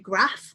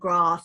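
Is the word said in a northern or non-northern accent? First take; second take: northern; non-northern. First: It is said in a northern English accent. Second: It is said in a non-northern accent. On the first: "because I'm northern, so I'd say grass" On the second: "so maybe it's a grass"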